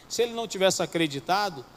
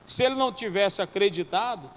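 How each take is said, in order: Both takes have the same delivery.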